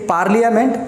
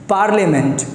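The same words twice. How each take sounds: First: It is said with an extra 'ee-uh' after 'parl'. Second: It is said without the 'ee-uh' after 'parl'. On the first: The speaker calls it wrong. "You don't have to से पार्लियामेंट" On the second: The speaker calls it right. "You have to से पार्लियामेंट"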